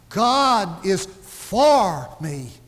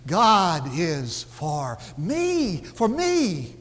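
First: The word 'for' is stressed. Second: The word 'me' is stressed. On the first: God is on my side, not against me. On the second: God is on the side of me personally.

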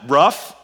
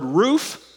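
First: The word sounds like a dog's bark, ruff. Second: The word does not sound like a dog's bark. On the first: "that's what the dog says" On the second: "if you said the word roof"

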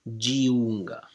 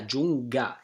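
First: The i is sounded as a separate vowel. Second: The i is silent and only softens the g. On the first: The speaker calls it wrong. "we don't have to say Giunga" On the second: The speaker calls it right. "Yeah, Giunga, exactly"

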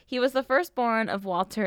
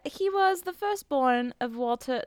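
First: It is said in the speaker's normal accent. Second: It is said in a put-on British accent.

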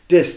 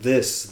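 First: The word begins with a d sound. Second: The word begins with a th sound. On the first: "a true Chicago accent is you implode your THs" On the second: "So instead of saying this"

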